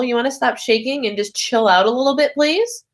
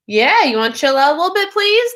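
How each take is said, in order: First: Said in the usual way. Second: Quicker, louder, with a high pleading "please?"; coaxing, higher and firmer; insistent repeat. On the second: Real, not acted. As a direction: push the request harder the second time. Repeats the request more insistently.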